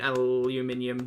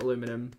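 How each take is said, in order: First: Aluminium said the British way, five syllables al-u-MIN-i-um; British pronunciation. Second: Aluminum said the American way, four syllables a-LOO-mi-num; American pronunciation. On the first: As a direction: say aluminium with the extra i, stress on MIN. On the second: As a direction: say aluminum with stress on LOO, no extra i. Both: Shown as a demonstration. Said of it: "not aluminum".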